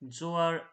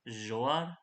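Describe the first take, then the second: First: It starts with a plain buzzing z sound. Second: It starts with a zh sound as in measure.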